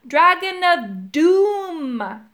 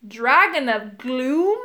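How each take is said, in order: First: Slow, loud, high, stretched-out bellow; emphatic holler with a long falling finish. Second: Slow, questioning "Gloom" rising at the end; baffled, drawn-out question; puzzled. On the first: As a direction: boom it out word by word. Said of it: "bellowed Urk". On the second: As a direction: repeat it slowly, unsure you heard right. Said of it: "looking puzzled". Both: A narrator's reading.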